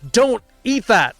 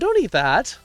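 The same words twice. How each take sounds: First: It sounds like a stern, demanding command. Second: It sounds like a gentle, casual request.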